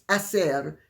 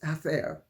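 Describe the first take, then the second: First: The c sounds like s, Latin American style. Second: The c sounds like th, Castilian style.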